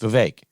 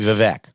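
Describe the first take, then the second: First: The last syllable rhymes with cake. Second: The last syllable does not rhyme with cake. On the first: The name is said the way its owner says it. The speaker calls it right. "It rhymes with cake. It's Vivek" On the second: The name is said wrong on purpose. The speaker calls it wrong. "calls Vivek Ramaswamy Vivek"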